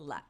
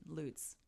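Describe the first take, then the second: First: The name is said the Americanized way. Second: The name is said the German way. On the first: This is how the family name is said. "the Americanized version of the German word" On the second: This is how the Florida place is said. "that's the German pronunciation"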